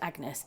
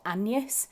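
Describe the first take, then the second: First: The name is said the usual modern way. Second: The name is said the older historical way. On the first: This is how the name is said today. "Agnes wasn't pronounced Agnes" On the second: This is how the name was said in earlier times. "it was pronounced Agnes, and that's how they pronounced it"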